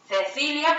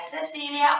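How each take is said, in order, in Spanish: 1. La c suena como la th del inglés. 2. La c suena como una s. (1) "lo que nosotros pronunciamos como ce" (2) "Cecilia para ellos sería Cecilia"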